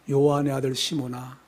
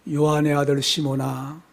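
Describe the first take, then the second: No difference in how they are said.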